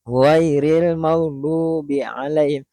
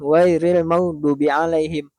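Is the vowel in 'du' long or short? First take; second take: long; short. First: The vowel in 'du' is held long. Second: The vowel in 'du' is cut short. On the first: The speaker calls it right. "Du itu ada waw di sana" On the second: The speaker calls it wrong.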